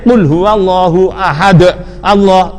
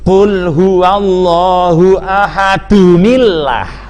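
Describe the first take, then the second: First: Ahad runs straight into Allah without a linking sound. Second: Ahad joins Allah through an added 'nil' sound. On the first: The speaker calls it wrong. "itu tidak boleh ... dibaca terus begitu, tidak boleh" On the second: The speaker calls it right. "itu bacanya begini"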